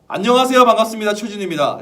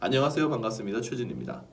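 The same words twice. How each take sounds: First: The greeting is spoken at a very loud volume. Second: The greeting is spoken at a soft volume.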